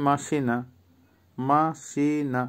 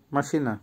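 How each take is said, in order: First: MA-SI-NA slowly, syllable by syllable, for মাসিনা; slow pronunciation demo. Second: Said in the usual way. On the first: Shown as a demonstration. Teacher repeating a Russian word for learners, slow and careful. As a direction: draw out each syllable of মাসিনা, softly. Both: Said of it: "উচ্চারণ আবারও বলছি".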